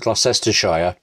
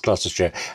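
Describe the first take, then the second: First: The name is said with many syllables. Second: The name is said with few syllables. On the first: "with as many syllables as they could pack into the name as possible" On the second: "It is Gloucestershire"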